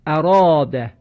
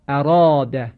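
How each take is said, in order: First: اراده with a full, heavy آ after the ر, said louder; heavy long a. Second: اراده again with the full heavy آ, said louder; heavy long a. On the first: Teacher models the word for listeners, heavy and full. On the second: Teacher models the word a second time, heavy and full. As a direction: repeat اراده, keeping the آ thick. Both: Shown as a demonstration. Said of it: "به تلفظ این کلمه توجه بفرمایید".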